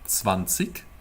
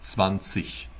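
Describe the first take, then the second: First: The word ends with a hard k sound. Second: The word ends with a soft ich sound. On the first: It is a common regional form. The speaker calls it wrong. "you wouldn't say zwanzig. It's not wrong per se, because many German speakers say zwanzig" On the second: It is the standard High German form. The speaker calls it right. "if you want to learn High German, it is zwanzig"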